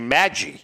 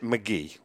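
First: The name sounds like Maggie. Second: The name sounds like McGee. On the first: This is how the name was commonly said. The speaker calls it wrong. "That's why we used to say Maggie" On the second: This is how the person himself said the name. The speaker calls it right. "but he pronounced it McGee"

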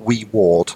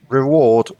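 First: It sounds like two words, wee ward. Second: It sounds like the single word reward. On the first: A very small ward. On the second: Something given in return.

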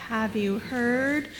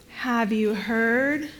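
The two takes are said the same way.

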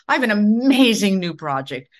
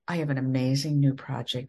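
First: The voice is lively and high in energy. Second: The voice is flat and low in energy. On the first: The speaker is thrilled about the project. The speaker calls it right. "use your voice and be excited" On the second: The speaker does not seem to care about the project. The speaker calls it wrong. "that sounds like, who wants that?"

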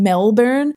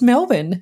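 First: The name is said in an American accent. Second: The name is said in an Australian accent. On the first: The speaker calls it wrong. "Why did I decide to say Melbourne like a bloody American?" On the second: The speaker calls it right. "It's Melbourne"

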